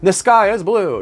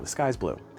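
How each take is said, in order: First: It is said with exaggerated, dramatic flair. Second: It is said flatly as a plain fact.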